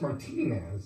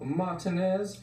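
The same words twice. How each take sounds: First: "Martinez" with a long, stressed "tee" in the middle; corrected pronunciation. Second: "Martinez" said wrongly, without a long "tee" in it; mispronounced name. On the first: Shown as a demonstration. Anchor correcting his co-anchor, pronouncing "Martinez" as mar-TEE-nez. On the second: Acted. Co-anchor naming the coach, mispronouncing "Martinez". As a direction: say "Martinez" with a weak, swallowed middle syllable. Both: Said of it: "I think it's pronounced Martinez".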